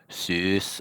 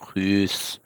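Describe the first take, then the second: First: The word begins with an S sound. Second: The word begins with a light H sound. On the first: "the S sound often changes to a light H" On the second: "They'll say hus"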